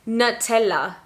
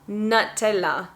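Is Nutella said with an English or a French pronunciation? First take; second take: English; English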